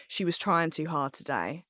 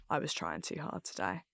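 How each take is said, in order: First: Said in the usual way. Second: Much lower and softer, crestfallen; deflated agreement. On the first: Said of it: "And if people are like". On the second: Retold or imitated. Reading harsh tweets about herself, quietly deflated. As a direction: let it sink in, quietly defeated. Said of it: "I'll be like".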